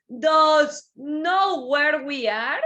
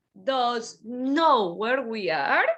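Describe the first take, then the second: First: Slow, called-out "know" question. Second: Said in the usual way. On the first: Shown as a demonstration. Teacher calls the question out to the class. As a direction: call out slowly, stressing "know".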